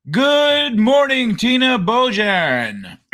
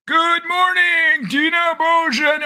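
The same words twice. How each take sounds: First: Slow, stretched sing-song greeting; drawn-out greeting. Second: Much higher, slow sing-song hello; higher sing-song greeting. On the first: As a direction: draw the hello out, a little raised. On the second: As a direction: stretch it out like a cheerful chant, up high. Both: Acted. And of course.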